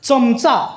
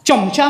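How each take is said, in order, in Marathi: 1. पहिला व्यंजन दंतस्थानी 'ts' आवाज आहे. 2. पहिला व्यंजन तालव्य 'ch' आवाज आहे. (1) "चमचा असंच म्हणायचं" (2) "चमचा म्हणायचं नाही. हे अशुद्ध मराठी"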